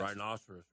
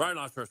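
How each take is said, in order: First: The word is said at a normal speed. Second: The word is said as fast as possible. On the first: The speaker calls it wrong. "that was like normal" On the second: The speaker calls it right. "Say it fast, fast as you can"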